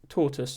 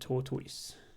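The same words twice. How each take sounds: First: The word is said quickly with a reduced ending. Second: The word is said slowly with a full ending. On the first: This is how people say it in quick everyday speech. "so do British people if they're speaking quickly. It's more like tortoise" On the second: This is said deliberately clearly for listeners. "I'm deliberately speaking slowly and clearly"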